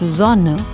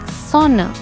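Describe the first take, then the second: First: The word begins with a buzzing z sound. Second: The word begins with a hissing s sound. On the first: The speaker calls it right. "the letter S sounds like Z" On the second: The speaker calls it wrong. "you don't say it like Sonne"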